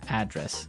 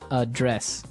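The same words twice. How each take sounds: First: The stress is on the first syllable. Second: The stress is on the second syllable.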